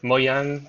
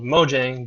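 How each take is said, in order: First: The name is said with an attempted Swedish pronunciation. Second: The name is said with an American pronunciation. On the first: "I think it's like Mojang or something like that in Swedish" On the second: "that's the American pronunciation of it"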